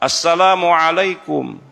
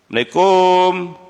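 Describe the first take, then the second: First: Every syllable of the greeting is said fully. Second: The greeting is clipped and slurred together. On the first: The speaker calls it right. "Seharusnya ucapkan dengan cara lengkap Pak" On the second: The speaker calls it wrong. "Namu kromo orang tuh nah"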